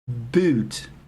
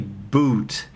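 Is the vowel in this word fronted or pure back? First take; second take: fronted; pure back. First: The vowel is fronted, between oo and ee. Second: The vowel is a pure, back, rounded oo. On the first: "You say something between ooh and e" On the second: "you don't say boot"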